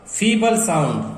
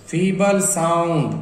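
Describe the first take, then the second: First: Said in the usual way. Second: Drawn out slowly, word by word; slow demo. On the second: Shown as a demonstration. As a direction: stretch feeble sound out slowly. (धीरे-धीरे खींचकर) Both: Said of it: "feeble मतलब धीमा".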